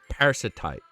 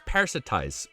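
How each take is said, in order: First: The word ends with a 't' sound. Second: The word ends with a 'z' sound. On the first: The speaker calls it wrong. "why was I saying parasitite?" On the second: The speaker calls it right. "I know it's parasitize"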